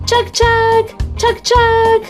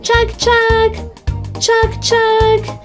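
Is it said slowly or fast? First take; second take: fast; slowly. First: It is said fast. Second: It is said slowly.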